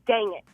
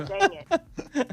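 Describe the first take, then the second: First: Said in the usual way. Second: Retold yell. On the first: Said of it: "you can hear me on the video go". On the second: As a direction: imitate your own caught-on-video yelp, higher. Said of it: "you can hear me yell".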